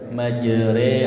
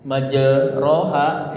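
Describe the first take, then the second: First: The vowel after r sounds like e. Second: The vowel after r sounds like a.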